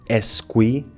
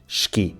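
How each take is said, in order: First: The opening E vowel is clearly heard. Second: The E is dropped and S sounds like sh. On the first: The speaker calls it wrong. "Muitas pessoas pronunciaram esqui" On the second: The speaker calls it right. "em Portugal dizemos esqui"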